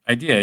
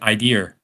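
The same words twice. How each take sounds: First: The word ends in a plain vowel. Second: The word ends with an added R sound. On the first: "like I had an idea" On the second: "For like the majority of my youth, I said idea"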